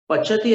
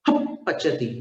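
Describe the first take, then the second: First: It starts straight on the p sound. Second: A breath is blown through closed lips first. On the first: The speaker calls it wrong. "पचती ऐसा उच्चारण नहीं होगा" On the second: The speaker calls it right. "हप पचती ये उच्चारण होगा"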